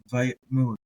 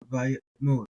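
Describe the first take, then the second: No difference in how they are said.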